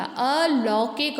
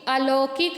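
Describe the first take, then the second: First: अलौकिक said as "a-lau-kik"; अलौकिक with "lau", not "lo"; औ vowel. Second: अलौकिक said as "a-lo-kik"; ओ vowel. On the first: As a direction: open the लौ wide in अलौकिक. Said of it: "ला में औ की मात्रा". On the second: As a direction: use a plain "lo" in अलौकिक. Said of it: "अलौकिक नहीं होता". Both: Shown as a demonstration.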